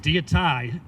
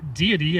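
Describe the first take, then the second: First: The word ends with an 'eye' sound. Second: The word ends with an 'ee' sound. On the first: This is the older pronunciation that fits the rhyme. "so it rhymes in the poem" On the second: This is the usual modern pronunciation. "I'm going to pronounce the word deity as"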